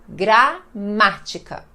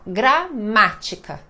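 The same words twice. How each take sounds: No difference in how they are said.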